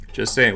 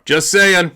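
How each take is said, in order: First: Said in the usual way. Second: High, loud throwaway "Just saying."; punchy quip. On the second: Real, not acted. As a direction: toss it off loud and bright. Repeated quip, first punched.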